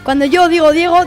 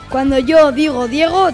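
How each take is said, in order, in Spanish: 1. La frase se dice a velocidad rápida. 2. La frase se dice a velocidad media. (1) "Y ahora vamos con la velocidad rápida" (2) "Ahora vamos con la velocidad media"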